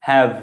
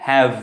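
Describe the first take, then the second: No difference in how they are said.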